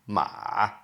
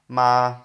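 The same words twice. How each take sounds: First: The pitch dips down, then rises. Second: The pitch stays level and flat. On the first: It means horse. "down and up the third tone" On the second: It means mother. "if you have a flat tone"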